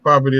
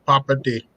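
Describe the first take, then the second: First: It is said in the speaker's usual accent. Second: It is said with a Filipino accent. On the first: "instead of saying property" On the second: "they have this accent that ... they say property"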